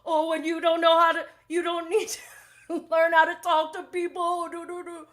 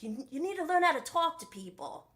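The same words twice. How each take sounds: First: High, loud mimicking voice; hammed-up taunt trailing into nonsense syllables; mocking retort. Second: Badly faked Australian accent, higher pitched; mock Australian scolding, pitched up; attempted Australian accent. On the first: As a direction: parrot it back in a silly raised voice. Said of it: "He's like". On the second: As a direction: have a half-hearted go at an Australian accent. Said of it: "I can't really do the Australian accent".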